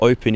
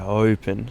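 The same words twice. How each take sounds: First: The word starts abruptly with a normal vowel. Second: The word starts softly with a long, airy vowel. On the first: "instead of saying like open" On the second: "you extend the first vowel but have a softer start"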